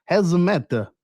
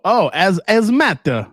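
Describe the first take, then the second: First: Higher, badly faked French; bad French accent. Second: Higher, louder, slow French "as, as matter"; French accent, silent H. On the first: Host answering a chat question, failed French accent. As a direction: have a hopeless go at French. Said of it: "I can't do a French accent". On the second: Host retrying hazmat in French, H-less mock French accent. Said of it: "French don't pronounce their H's". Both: Shown as a demonstration.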